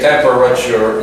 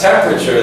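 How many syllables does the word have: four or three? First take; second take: four; three. First: All four syllables are pronounced, including the middle vowel. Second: The middle vowel is dropped, giving three syllables. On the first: The speaker calls it wrong. "not so good" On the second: The speaker calls it right. "that would be no problem"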